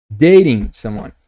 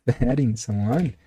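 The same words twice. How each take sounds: First: Slow, louder, clean "Dating someone"; re-say "Dating someone" firmly and clearly; emphatic, careful "Dating" then "someone"; corrected take. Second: Slurred, low slip on "dating someone" with a laugh; drawn-out, mushy "dating someone"; fumbled pronunciation. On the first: Shown as a demonstration. Corrected take after the slip. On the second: Real, not acted. Fumbles it, laughs, then corrects.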